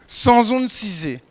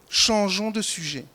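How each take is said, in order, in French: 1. Le ch et le j se prononcent comme s et z. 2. Le ch et le j se prononcent comme des sons chuintants. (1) "il ne peut pas sortir autrement que sans onde cisée. Parce que lui n'a point le che" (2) "une phrase française claire"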